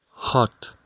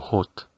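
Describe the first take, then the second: First: The vowel sounds like an open 'a'. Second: The vowel sounds like a rounded 'o'. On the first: The speaker calls it right. "la letra O se pronuncia como una A" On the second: The speaker calls it wrong. "hay que evitar pronunciar esta palabra como hot"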